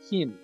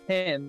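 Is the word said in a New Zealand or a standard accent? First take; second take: New Zealand; standard. First: It is said with a New Zealand vowel. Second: It is said with a standard English vowel. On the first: "they say hin" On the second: "instead of saying hen"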